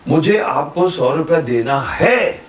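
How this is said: The stress is on है.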